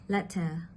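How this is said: The middle t is a quick voiced flap. "In American English, this sound is often made with a voiced flap"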